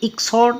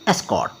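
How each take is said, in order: First: The word begins with a short 'i' vowel. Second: The word begins with an 'e' vowel. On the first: The speaker calls it wrong. "इसलिए इक्सॉट नहीं" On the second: The speaker calls it right. "एस्कॉट, ठीक है"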